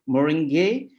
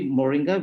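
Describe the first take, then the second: First: It is said with the native Tamil pronunciation. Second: It is said with the common English pronunciation. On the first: The speaker calls it right. "we say moringe" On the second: The speaker calls it wrong. "we don't say moringa"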